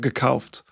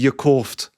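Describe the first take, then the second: First: It is said in standard German. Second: It is said in Berlin dialect.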